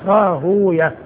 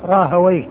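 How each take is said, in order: First: The name ends with a long u and -yah. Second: The name ends with an open -wayh syllable. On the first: This is the form hadith scholars use. "فالمحدثون يأتون بها الهاء مضمومة والواو ساكنة والياء مفتوحة وبعدها هاء" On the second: This is the form grammarians use. "أهل اللغة يقولون راهويه"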